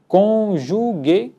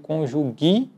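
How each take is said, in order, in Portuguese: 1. A vogal final soa como E. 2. A vogal final soa como I. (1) "e sim conjugue, que é a grafia correta também" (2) "não vamos dizer conjugue"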